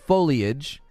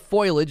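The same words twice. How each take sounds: First: The word is said with all its syllables. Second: The word is run together with fewer syllables.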